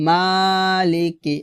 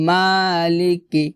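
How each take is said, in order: Both takes have the same delivery.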